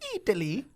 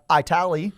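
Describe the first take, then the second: First: It is said in a standard accent. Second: It is said in an Oklahoma accent.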